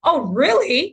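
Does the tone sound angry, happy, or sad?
angry. It is said in an angry tone.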